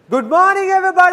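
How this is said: The greeting is said with lots of excitement.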